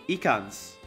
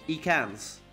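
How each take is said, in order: The two takes are said the same way.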